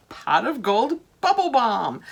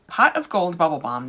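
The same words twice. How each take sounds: First: Slow, higher, sing-song announcement; delighted name reveal. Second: Said in the usual way. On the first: Real, not acted. Vlogger shows viewers the new bath balm, delighted and slow.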